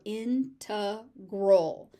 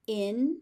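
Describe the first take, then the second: First: "integral" as IN-tuh-grul, slowly; weak "tuh" in the middle of "integral", stress IN; second variant. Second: "Integral" as in-TEG-rul, middle syllable "teg"; first variant. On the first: Teacher offering the alternative form, first-syllable stress. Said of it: "or integral". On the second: Teacher offering two accepted forms, second-syllable stress. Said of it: "These are completely interchangeable". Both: Shown as a demonstration.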